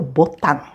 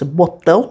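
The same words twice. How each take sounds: First: The word ends in a plain n sound. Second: The word ends in a nasal diphthong. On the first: This is the borrowed form it became. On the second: This is the original source word.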